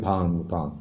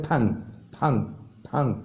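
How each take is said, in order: First: "پھانگ" with a long aa; local pronunciation. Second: "پھانگ" with a short vowel, falling; Korean pronunciation. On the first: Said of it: "ہم لوگ پڑھتے ہیں". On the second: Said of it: "Korean اس کو پڑھتے ہیں". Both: Shown as a demonstration.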